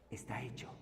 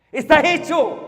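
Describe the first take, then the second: First: Breathy whisper of "Está hecho", as if sharing a secret. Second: "Está hecho" said full-voiced and firm after the whisper; proclaimed aloud. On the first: Preacher whispering the core truth to listeners. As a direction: drop to a whisper, almost no voice. Preacher hushes the key phrase. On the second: Preacher proclaiming the finished work to congregation. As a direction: announce "Está hecho" with a falling, decisive tune. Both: Real, not acted.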